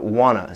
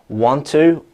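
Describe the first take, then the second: First: The words are reduced and run together as wanna. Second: Both words are said fully, with a clear t.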